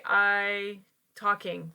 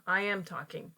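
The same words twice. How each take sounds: First: Slow, deliberate wrong example; wrong form, slowed. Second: Said in the usual way. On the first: Shown as a demonstration. Teacher slowly modelling a learner's error. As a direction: drag out the mistake so learners hear it. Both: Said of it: "No, no".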